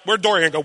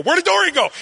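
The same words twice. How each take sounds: First: Said in the usual way. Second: Sudden high-pitched alarmed question; mock panic. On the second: Father realising his toddler has vanished, mock panic. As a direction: leap way up in pitch, playacting alarm.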